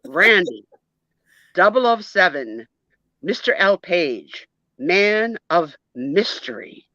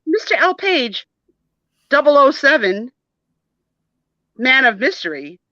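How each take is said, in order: First: Lightly put-on British accent; measured agent-style name in a mild British accent. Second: High, mocking British accent; mimicking British accent. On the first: Schoolboy reciting his full secret-agent name, in a light British accent. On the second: Jody repeats classmate's grand name back, high mock British accent. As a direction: parrot his British accent in a raised pitch. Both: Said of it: "are you speaking with a British accent?".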